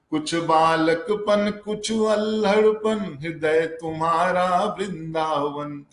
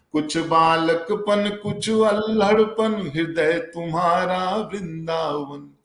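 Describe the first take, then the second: The two takes are said the same way.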